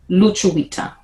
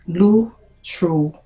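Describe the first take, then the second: First: It is said at normal conversational speed. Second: It is said slowly, every sound drawn out.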